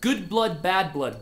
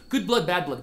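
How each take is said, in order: First: It is said at a slow, careful pace. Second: It is said at a fast, quick pace. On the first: "it goes like this" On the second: "Ideal speed for this would be something like this"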